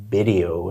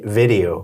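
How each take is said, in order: First: "video" pronounced "bidio"; Spanish-speaker slip, B opening "video". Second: Said in the usual way. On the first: Shown as a demonstration. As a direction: start "video" with a B sound. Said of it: "Spanish speakers will say". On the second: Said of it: "instead of vi-, video".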